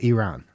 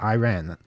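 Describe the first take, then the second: First: The first vowel does not sound like 'eye'. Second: The first vowel sounds like 'eye'. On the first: The speaker calls it wrong. "not Iran" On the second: The speaker calls it right. "they spell it E-Y-E space R-A-N"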